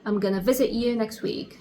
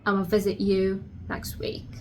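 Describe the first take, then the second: First: 'Going to' is reduced to 'gonna'. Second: 'I'm going to' is shortened to 'ama'. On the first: "you're going to say I'm gonna" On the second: "another pronunciation of that, which is ama"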